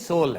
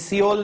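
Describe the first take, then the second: First: It is said with one syllable, sole. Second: It is said with two syllables, see-ol. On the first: The speaker calls it right. "ये सोल है" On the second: The speaker calls it wrong. "ये सियोल नहीं है"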